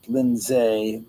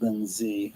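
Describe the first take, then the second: First: "Lindsay" said as Lin-ZAY; ending "zay". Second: "Lindsay" said softly as LIN-zee; ending "zee". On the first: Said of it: "It's S A Y". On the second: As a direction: finish "Lindsay" on a low-key "zee". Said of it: "not S E Y". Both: Shown as a demonstration.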